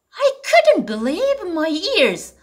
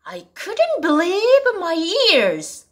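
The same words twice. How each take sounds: First: Slow repeat with couldn't stressed; second model reading. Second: Slow, stress on couldn't; slow model reading. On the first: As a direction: say it again slowly, couldn't strong. (다시 천천히 couldn't 강조) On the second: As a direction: read it slowly, leaning on couldn't. (천천히 couldn't에 강세를 주며) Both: Shown as a demonstration. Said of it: "첫 번째 표현 보실까요".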